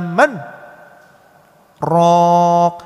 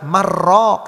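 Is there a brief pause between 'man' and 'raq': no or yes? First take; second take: yes; no. First: A brief stop separates man from raq. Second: The two words merge without any stop. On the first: The speaker calls it right. "ada saktah di sana" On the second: The speaker calls it wrong. "Tidak boleh dibaca marraq"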